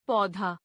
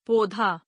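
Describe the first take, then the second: First: Said in the usual way. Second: पौधा with closed "o" for "au"; mispronounced. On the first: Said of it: "शुद्ध". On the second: Shown as a demonstration. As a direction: say पौधा as "podhaa". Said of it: "अशुद्ध".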